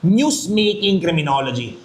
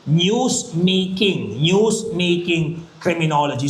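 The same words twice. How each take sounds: First: Said in the usual way. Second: "News-making" said very slowly, each syllable spaced; slow emphasis. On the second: Shown as a demonstration. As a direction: drag out "News-making" for the class. (binibigkas nang napakabagal ang "News-making") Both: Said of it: "ano tong tinatawag natin".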